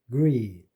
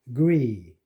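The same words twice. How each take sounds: No difference in how they are said.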